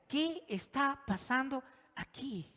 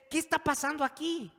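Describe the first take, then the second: First: Slow, high, carefully spaced question; very cautious. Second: High, loud, urgent question; exasperated outcry. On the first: Shown as a demonstration. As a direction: ask it gingerly, word by word. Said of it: "vamos a contestar la pregunta con mucha". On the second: Acted. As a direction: cry it out at the end of your patience.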